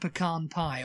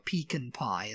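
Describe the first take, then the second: First: It is said in an American accent. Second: It is said in a British accent.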